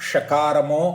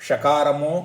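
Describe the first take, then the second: Both takes have the same delivery.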